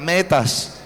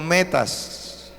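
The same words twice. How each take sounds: First: It is said more loudly. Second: It is said at normal volume.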